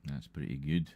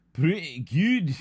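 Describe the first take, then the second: First: Said in the usual way. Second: Much higher, louder, slow, drawn-out Pretty good; hammed-up put-on voice. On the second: Streamer echoes his own verdict in a hammed-up slow voice. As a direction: stretch Pretty good out in a silly voice.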